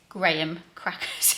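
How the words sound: It is said in a British accent. "in a U K accent, which sounds just not it"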